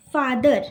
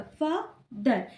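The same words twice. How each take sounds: First: Said in the usual way. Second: father broken in two, a pause between फा and दर; split into syllables. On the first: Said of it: "फिर से मेरे साथ बोलेंगे". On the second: Shown as a demonstration. Teacher showing students two syllables, father said slowly with a pause between them. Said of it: "फा और दर के बीच में pause दिया है".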